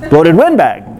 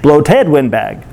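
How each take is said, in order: First: "windbag" hit hardest with a sharp rise and fall; stress on windbag. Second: "bloated" hit hardest, slow and falling; stress on bloated. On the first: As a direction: lift and punch "windbag". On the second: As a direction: punch "bloated", let "windbag" drop. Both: Shown as a demonstration. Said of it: "no syllables to emphasize".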